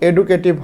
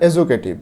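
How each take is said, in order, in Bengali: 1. মাঝের ব্যঞ্জনটি সাধারণ 'd' ধ্বনি। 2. মাঝের ব্যঞ্জনটি 'j' ধ্বনি। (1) "এটার উচ্চারণ কিন্তু এডুকেটিভ হবে না" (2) "এজুকেটিভ এবং শিক্ষণীয়"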